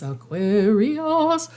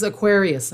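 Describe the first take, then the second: First: "Aquarius" stretched slowly, syllable by syllable; playfully drawn out. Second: Said in the usual way. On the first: Real, not acted. Reader announcing the next sign, "Aquarius" playfully stretched. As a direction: draw "Aquarius" out long, playing with the sound. Playfully repeats the sign's name.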